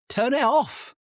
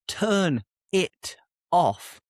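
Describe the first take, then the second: First: "turn it off" run together, higher; linked, turnitoff. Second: Said in the usual way. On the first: Shown as a demonstration. Teacher showing "turn it off" as one linked word. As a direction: join "turn it off" into one flow. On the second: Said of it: "Instead of".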